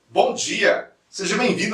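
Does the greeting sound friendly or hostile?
friendly. The greeting is said in a warm, friendly tone. The welcome seems sincere. The speaker calls it right. "você tem que usar o tom de voz adequado"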